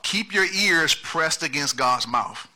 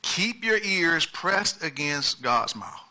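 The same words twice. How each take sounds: First: Slow emphatic. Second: Slower softer repeat. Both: Shown as a demonstration. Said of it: "Point number one".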